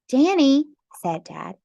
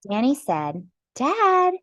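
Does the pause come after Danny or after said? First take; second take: after Danny; after said. First: The pause comes after the word Danny. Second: The pause comes after the word said. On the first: Dad speaks the name Danny. The speaker calls it right. "There we go" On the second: Danny speaks the word Dad. The speaker calls it wrong. "I think I read that with the wrong inflection"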